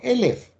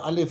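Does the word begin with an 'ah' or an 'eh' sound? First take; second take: eh; ah. First: The word begins with an 'eh' sound. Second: The word begins with an open 'ah' sound. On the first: It means an immeasurably large amount. "aber dasselbe Wort ist eben auch Elef" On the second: It names the letter itself. "das wird normal Aleph ausgesprochen"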